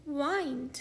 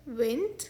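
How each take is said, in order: First: वाइंड rhyming with "find"; long I in वाइंड. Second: विंड with the vowel of "win"; short I in विंड. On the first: Teacher contrasting changed meanings, वाइंड with long i. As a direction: say वाइंड with an eye glide. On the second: Teacher contrasting changed meanings, विंड with short i. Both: Shown as a demonstration. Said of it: "इन शब्दों के उच्चारण बदलने".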